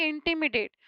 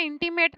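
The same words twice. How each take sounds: First: इंटिमिडेट with four syllables, in-ti-mi-date; softly corrected इंटिमिडेट, "di" syllable included; correct word shown. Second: इंटीमेट with three syllables, no "di"; the mistaken reading, इंटीमेट as in-ti-mate; wrong word shown. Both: Shown as a demonstration. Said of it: "इंटीमेट नहीं".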